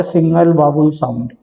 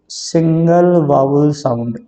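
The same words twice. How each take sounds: First: Said in the usual way. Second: Key term said at half speed, syllables drawn out; slow emphatic repetition. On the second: Shown as a demonstration. Teacher repeats the definition of a syllable for students, slow and deliberate. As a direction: stretch each word out for learners.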